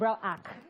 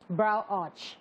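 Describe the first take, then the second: First: The last word ends with a 'k' sound. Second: The last word ends with a 'ch' sound. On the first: The speaker calls it wrong. "But they call it brow arc" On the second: The speaker calls it right. "the proper pronunciation is actually brow arch"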